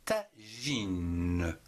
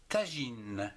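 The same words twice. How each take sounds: First: "Tagine" stretched as ta, ji, ne; syllable by syllable. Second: Said in the usual way. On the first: Shown as a demonstration. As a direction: draw out "Tagine" in separate syllables, sounding the final ne. (« Tagine » découpé lentement : ta, ji, ne) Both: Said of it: "en trois syllabes".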